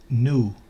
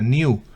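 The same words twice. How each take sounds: First: It is said with an American pronunciation. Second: It is said with a British pronunciation. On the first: "la pronunciación dominante es new" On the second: "Realmente en Inglaterra se pronuncia new"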